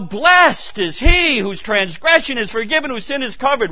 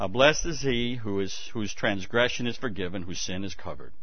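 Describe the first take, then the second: First: It is read with passion and lively conviction. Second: It is read in a flat, gloomy, joyless voice. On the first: The speaker calls it right. "we need to go" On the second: The speaker calls it wrong. "This is what we should not do. ... Sounds like Eeyore"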